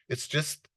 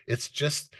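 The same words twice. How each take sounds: The two takes are said the same way.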